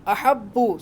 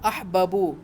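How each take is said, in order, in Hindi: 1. b दोहरा है, बीच में कोई स्वर नहीं। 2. दोनों b की आवाज़ें एक स्वर से बँटी हुई हैं।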